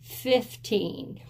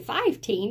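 First: It begins with the short sound 'fif'. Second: It begins with the full sound 'five'. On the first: The speaker calls it right. "We say 15" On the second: The speaker calls it wrong. "We don't really say five. We don't say 15, That sounds super silly"

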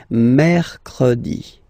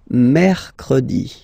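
Both takes have the same delivery.

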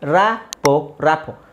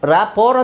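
First: The word ends without an r sound. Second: The word ends with an audible r sound. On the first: "so ಇಲ್ಲಿ ಆರ್ silent ಆಗಿದೆ" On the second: "ಇದು ರ್ಯಾಪೋರ್ ಅಂತಲೂ ಹೇಳ್ಬೋದು"

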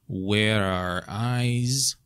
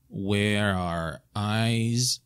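The two takes are said the same way.

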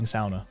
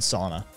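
First: Sauna is said in a non-North American way. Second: Sauna is said the standard North American way. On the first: "I'm actually saying sauna" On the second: "which is the standard North American pronunciation"

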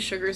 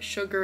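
First: The word ends with an s sound. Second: The word ends without an s sound. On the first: The speaker calls it wrong. "I always say that with so many S's" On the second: The speaker calls it right. "Not Lily's Sugars and Creams"

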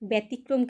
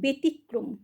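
First: The first syllable sounds like 'bya'. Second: The first syllable sounds like 'be'. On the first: The speaker calls it wrong. "কিন্তু নয়" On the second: The speaker calls it right. "বললাম"

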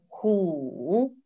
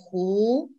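First: The syllable is said in the third tone. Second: The syllable is said in the second tone. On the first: It means a tiger. "В третьем тоне ху, значит тигр" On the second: It means a lake. "Во втором тоне ху, значит озеро"

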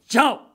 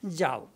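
First: The word is shouted angrily. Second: The word is said calmly and gently. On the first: The speaker orders someone to get out. "same mother is shouting" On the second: The speaker gives permission to go. "Jao means I'm giving you permission"

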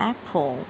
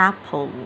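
The two takes are said the same way.

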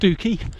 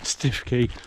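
First: The name is said as 'Stoo-key'. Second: The name is said as spelt, 'Stiff-key'. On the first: "many others who will tell you it's actually pronounced Stookey" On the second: "some would tell you it's pronounced Stiffkey"

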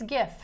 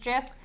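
First: The word begins with a hard G sound. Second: The word begins with a soft G sound. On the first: The speaker calls it right. "so it's a hard G. So I say it's GIF" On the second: The speaker calls it wrong. "the creator says it's GIF. He's wrong"

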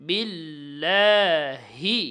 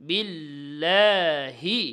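The two takes are said the same way.

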